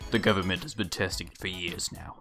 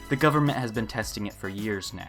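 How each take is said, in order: First: It is said in a deep, manly put-on voice. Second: It is said in the speaker's normal voice.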